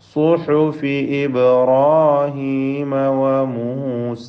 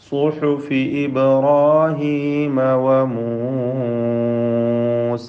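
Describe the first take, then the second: First: The final vowel of Musa is held briefly. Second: The final vowel of Musa is drawn out.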